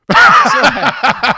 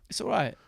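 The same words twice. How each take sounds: First: Much higher, louder, slow drawn-out grudge; mock grudging. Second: Said in the usual way. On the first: Conceding the rival stadium is fine, hammed-up and drawn-out. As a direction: stretch the words like it hurts to admit.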